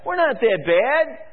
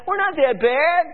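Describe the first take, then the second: First: Higher, self-satisfied priest voice; a smug priest brushing off the warning; priests mocked. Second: Higher and louder, smug leader; a mocking jab at the leaders; leaders mocked. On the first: Preacher mimics priests dismissing judgment, smug. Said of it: "the priests said". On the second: Preacher mimics leaders brushing off prophet, mocking smug. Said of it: "The leaders said".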